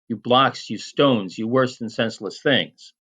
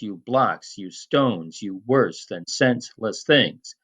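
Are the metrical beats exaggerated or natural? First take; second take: natural; exaggerated. First: The beats are stressed only lightly and naturally. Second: Every beat syllable is hit with heavy stress.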